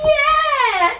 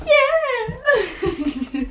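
First: High, loud hyper squeal; hyper yell. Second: High laughing yeah. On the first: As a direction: shriek it, totally wired. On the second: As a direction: giggle through the word. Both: Real, not acted. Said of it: "I was so hyper".

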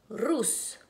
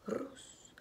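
First: Said in the usual way. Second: Whispered repeat. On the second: Shown as a demonstration. Maestra repite la sílaba susurrando.

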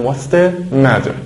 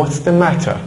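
First: American accent. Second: Crisp British English, clear t in matter; British accent. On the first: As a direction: say 'matter' like 'madder', American style. (با لهجهٔ امریکن، t در matter نرم مثل d) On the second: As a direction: say 'matter' the British way with a sharp t. (با لهجهٔ بریتیش، t در matter واضح) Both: Shown as a demonstration.

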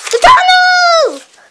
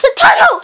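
First: Higher, slow stretched yell of The tunnel; drawn-out shout. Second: Quick high laughing cry; excited shout. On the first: Kid stuck at the tunnel, slow drawn-out yell. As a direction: stretch the words out in alarm. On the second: Kid spotting the tunnel, laughing shout. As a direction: blurt it out with a laugh. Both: Real, not acted.

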